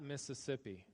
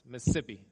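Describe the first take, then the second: First: It is said slowly with every s sound. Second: It is said fast with fewer s sounds. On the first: The speaker calls it wrong. "It's not Mississippi" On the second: The speaker calls it right. "You got to say it real fast... take one of the S S's out of there"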